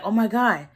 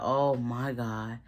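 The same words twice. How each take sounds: First: Higher, imitated panicky exclamation; mild alarm. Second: Low, soft, slow imitation of dismay; hushed dread. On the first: Retelling her jumping out of bed, mild alarm. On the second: Retelling her seeing the phone, hushed dismay. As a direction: let it sink out low and drawn out. Sees who is at the door.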